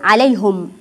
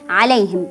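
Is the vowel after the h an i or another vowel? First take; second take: other vowel; i vowel. First: The h is followed by a non-i vowel. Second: The h is followed by an i vowel. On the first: The speaker calls it wrong. "ولا أقول عليهم" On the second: The speaker calls it right. "عليهم بالكسرة"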